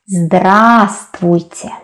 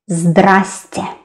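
First: All syllables of the full word are pronounced. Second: The word is shortened to two syllables.

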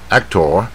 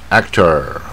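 First: The ending is short without a curled r. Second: The ending is drawn out with a curled r. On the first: This is the British way of saying it. "那当然英国人会念actor" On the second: This is the American way of saying it. "通常在字尾，它的音会拉长一点，然后有点卷舌啊"

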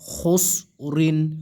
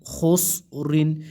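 The two takes are said the same way.

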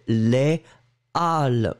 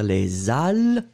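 First: The two words stay separate with no z sound. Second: A z sound links the two words together. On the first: The speaker calls it right. "vous ne faites pas la liaison" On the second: The speaker calls it wrong. "on ne va pas dire les HAL, non, non, non"

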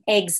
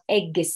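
First: The word is said with no added sound. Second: The word is said with an extra sound added. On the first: The speaker calls it right. "they're saying eggs" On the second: The speaker calls it wrong. "sometimes they input an extra sound"

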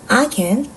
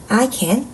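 Both takes have the same delivery.

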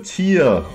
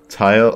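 First: The word is said like 'tier'. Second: The word is said like 'tire'. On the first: The speaker calls it right. "Is that better" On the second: The speaker calls it wrong. "it just feels natural to say tire when I'm supposed to say tier"

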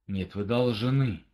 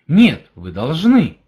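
First: It is said in a menacing, threatening tone. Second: It is said in a positive, affirming tone. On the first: "это где-то угроза" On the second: "Это положительность"

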